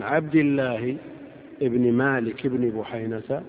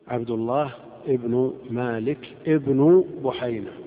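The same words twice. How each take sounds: First: "ابن" said as ibni, with an i ending, loud; emphatic abdillahi, then ibni for "ابن"; genitive case endings. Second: "ابن" said as ibnu, with a u ending, slow and loud; slow, emphatic ibnu for "ابن"; nominative case endings. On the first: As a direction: sound the i ending on "عبد الله" and each "ابن". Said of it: "حسب موقعه من الإعراب". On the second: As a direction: spell out the u ending on each "ابن" in "عبد الله ابن مالك ابن بحينة". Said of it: "وعبد الله موقعه من الإعراب الرفع". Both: Shown as a demonstration.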